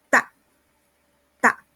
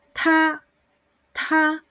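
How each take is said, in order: First: "ta" said softly with little breath on the t; gentle "ta", like a Spanish d; soft unaspirated d. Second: "ta" higher, with a strong puff of air on the t; aspirated t. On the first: Teacher showing the soft Mandarin d. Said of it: "La D es más suave". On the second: Teacher showing the strong aspirated Mandarin t. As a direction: hit the t of "ta" with breath. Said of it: "la T es más fuerte". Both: Shown as a demonstration.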